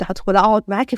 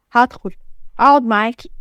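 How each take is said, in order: First: Said in the usual way. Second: "هدخل أقعد معاكي" punched out in separate pieces; emphatic repetition. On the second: Acted. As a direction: hit "هدخل", pause, then stress "أقعد معاكي". Husband repeats threat for emphasis. (تشديد على "هدخل أقعد معاكي")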